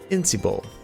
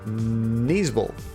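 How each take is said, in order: First: The word begins with an 'in' sound. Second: The word begins with a 'nee' sound. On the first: This is a guess at the American pronunciation. "how would I pronounce that word in American California John English?" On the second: This is a guess at the British pronunciation. "the English Britain pronunciation is going to take a few of those"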